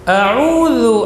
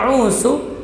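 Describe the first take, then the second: First: The middle consonant is voiced and not hissed. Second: The middle consonant is hissed like an s. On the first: I seek refuge. The speaker calls it right. "huruf za rakhawah dan jahar" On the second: I have lost it. The speaker calls it wrong. "tidak boleh berdesis, tidak boleh dibaca a'udzu"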